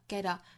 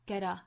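First: The t is a quick flap into the next word. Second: The t is a quick flap into the next word.

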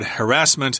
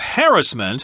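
First: It is said the American way. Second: It is said the British way.

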